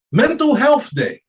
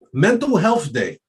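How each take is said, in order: First: Mental Health Day pitched way up in disbelief; mock disbelief, much higher; incredulous repeat. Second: Said in the usual way. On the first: Shown as a demonstration.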